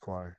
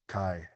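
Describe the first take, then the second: First: The name begins with a 'kw' sound. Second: The name begins with a plain 'k' sound. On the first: The speaker calls it right. "It's it's kwai" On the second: The speaker calls it wrong. "it's not like kai"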